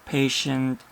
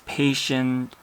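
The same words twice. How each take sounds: Both takes have the same delivery.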